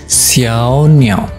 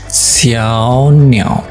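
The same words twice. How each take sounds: Both takes have the same delivery.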